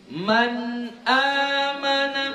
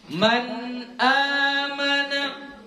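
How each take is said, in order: No difference in how they are said.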